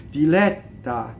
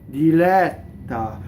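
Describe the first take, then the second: Both takes have the same delivery.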